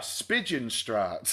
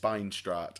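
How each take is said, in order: First: The letters i-j are said like 'ig'. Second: The letters i-j are said like 'eye'. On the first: The speaker calls it wrong. "so we were like, ah" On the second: The speaker calls it right. "no, it's it's Spinestraat"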